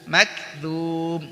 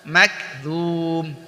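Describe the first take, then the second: Both takes have the same delivery.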